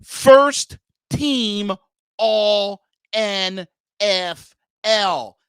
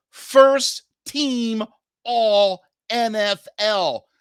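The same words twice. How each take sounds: First: Very slow, louder, each word hit; slow it right down and punch it; slower repeat. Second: Slow and loud; emphatic. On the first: Host repeating for listeners, slower and louder. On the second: Host stressing the caliber he wants, slowly. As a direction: spell it out. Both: Shown as a demonstration. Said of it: "Let me repeat that slower".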